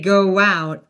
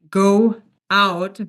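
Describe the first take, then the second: First: The words are joined with a gliding w sound. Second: The two words are said separately, choppy. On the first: The speaker calls it right. "we say go out" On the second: The speaker calls it wrong. "which again would be very staccato"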